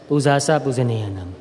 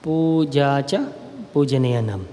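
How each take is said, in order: First: The first word ends with a 'sa' sound. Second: The first word ends with a 'cha' sound. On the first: This is how Burmese speakers say it. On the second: This is the usual pronunciation.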